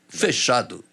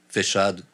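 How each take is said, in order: First: It is said with lively, varied intonation. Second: It is said flat and monotone, like a machine. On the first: The speaker calls it right. "Aí quando você chega assim" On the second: The speaker calls it wrong. "Era igual a voz do, do G P S"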